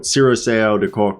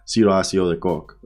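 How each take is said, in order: First: The name is said with an American pronunciation. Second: The name is said with its native pronunciation. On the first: "is just how you say it in American" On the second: "my real name is"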